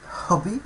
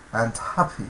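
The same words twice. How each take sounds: First: Hobby with British short rounded o, HOB-ee, said high. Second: Happy, hobby with American open ah, HAH-bee. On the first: Teacher models hobby in British pronunciation for students. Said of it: "in the British accent". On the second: Teacher models hobby in American pronunciation for students. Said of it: "in the American accent". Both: Shown as a demonstration.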